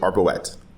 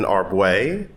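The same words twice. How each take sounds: First: The name is pronounced an English way. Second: The name is pronounced the French way. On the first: "Or I also answer to" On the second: "which is the French version"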